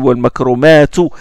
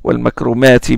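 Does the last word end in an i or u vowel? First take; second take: u; i. First: The final vowel of the last word is u. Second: The final vowel of the last word is i. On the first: The noun is set apart as less eminent. "mais là il dit wal makromatu" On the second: The noun follows the grammar of the sentence. "il se termine par une kasra quand il est mansoub"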